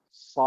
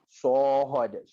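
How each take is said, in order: First: The vowel is an open 'ah' sound. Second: The vowel is a rounded 'oh' sound. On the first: The speaker calls it right. "bunyi yang tepat adalah Sad" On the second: The speaker calls it wrong. "Sod adalah bunyi yang kurang tepat"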